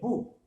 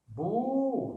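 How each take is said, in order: First: The vowel is short. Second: The vowel is long. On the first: "si je mets une dhamma" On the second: "si je veux la prolonger"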